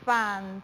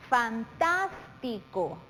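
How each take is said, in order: First: "fantástico" split by long pauses, fan... tás... ti... co; syllable by syllable. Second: Slow, joined "Fantástico" leaning on TÁS; stress on antepenultimate syllable. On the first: Teacher dividing the word for analysis, "fantástico" one syllable at a time. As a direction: break "fantástico" into separate, measured syllables. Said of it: "Si analizamos las sílabas". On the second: Teacher answering where the intensity falls, stressed TÁS in "Fantástico". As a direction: say "Fantástico" as one slow word, weight on TÁS. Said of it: "dónde damos la mayor intensidad en la voz".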